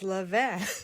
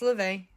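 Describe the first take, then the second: First: It is pronounced with French sounds. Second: It is pronounced with English sounds. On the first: "which is the French, or the au français" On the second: "in English, it's levain"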